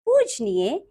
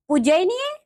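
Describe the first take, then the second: First: Said in the usual way. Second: "पूजनीय" with an extra vowel, "pu-jai-niye"; wrong pronunciation. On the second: Shown as a demonstration. Teacher showing pupils the error, "पूजनीय" mispronounced as "pujainiye". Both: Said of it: "अन्य अशुद्धियां कुछ".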